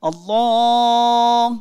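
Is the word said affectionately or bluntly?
affectionately. It is said warmly and tenderly. The caller addresses with love and devotion. The speaker calls it right. "ঠিক যেরকম আল্লাহ বলে আমরা যদি ডাকি"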